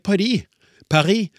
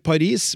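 First: It is said with French pronunciation. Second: It is said with Norwegian pronunciation. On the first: This is how the locals say it. "slik som franskmennene gjør" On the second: This matches how the name is written. "Vi skriver Paris"

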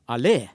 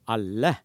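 First: The stress is on the second syllable. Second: The stress is on the first syllable. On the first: "allé har trykk på andre stavelse" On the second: "alle har trykk på første stavelse"

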